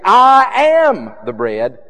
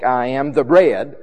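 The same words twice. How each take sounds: First: "I am" high, loud and drawn out; most emphatic I AM. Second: "I am" passed over lightly, "bread" stronger; less emphatic I AM. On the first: Preacher contrasting two emphases, emphatic loud high "I am". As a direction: ring out "I am", then drop off on "the bread". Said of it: "always with the most emphatic". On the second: Preacher contrasting two emphases, unemphatic "I am". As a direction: run "I am" straight into "the bread", no lift. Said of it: "not with the less emphatic". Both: Shown as a demonstration.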